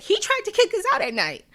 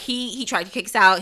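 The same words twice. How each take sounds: First: Much higher, put-on panicky bus driver voice; mock bus driver. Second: Said in the usual way. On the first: Bus driver complaining to the colony, mock high voice. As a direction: squeak it out like a frantic bus driver. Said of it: "the bus driver who was like". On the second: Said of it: "She's like".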